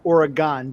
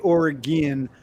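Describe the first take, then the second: First: The last syllable sounds like 'gone'. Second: The last syllable sounds like 'gin'. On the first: This is how people in the Northeast say it. "we've always pronounced it Oregon because it's G O N, like Pentagon" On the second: This is how people out west say it. "I know you guys say Oregon. ... I don't know why you say gin"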